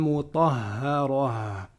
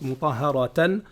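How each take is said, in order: First: The word ends in a soft -ah sound. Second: The word ends in a full -atan sound. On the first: The reciter stops at the end of the verse. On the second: The reading continues without stopping.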